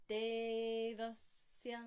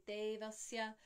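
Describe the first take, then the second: First: Devasya chanted slow, long De, pause on the s before ya; louder held Devasya, lingering before ya; slight pause. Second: Devasya run together with short vowels; no pause. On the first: Showing the poised version, Devasya chanted with pause. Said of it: "have to have a slight pause". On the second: Showing what we don't say, Devasya rushed through. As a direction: say Devasya quickly, without holding De or pausing. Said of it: "We don't say". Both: Shown as a demonstration.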